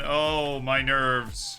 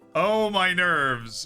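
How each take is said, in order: First: It is said in a sarcastic tone. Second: It is said in a sincere tone. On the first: The speaker calls it wrong. "that sounded sarcastic" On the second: The speaker calls it right. "but it wasn't"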